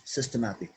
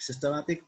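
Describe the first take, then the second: First: "systematic" dropping down to close the pair; closing fall on "systematic"; falling tune. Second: "Systematic" lifted up at the end like an open list item; questioning lilt on "Systematic"; rising tune. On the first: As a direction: settle "systematic" with a final fall. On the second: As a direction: let "Systematic" rise as if more is coming. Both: Shown as a demonstration. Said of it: "Look at the word systematic".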